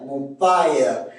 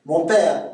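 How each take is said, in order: First: "mon père" as mon pa-ère; Québécois diphthong. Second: Said in the usual way. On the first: Shown as a demonstration. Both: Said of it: "c'est A E".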